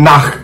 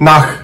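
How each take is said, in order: The two takes are said the same way.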